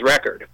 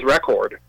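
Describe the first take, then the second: First: It is said with an American accent. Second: It is said with a British accent. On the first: "he sounds as American as you or I. He probably says record" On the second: "[name], who probably says record"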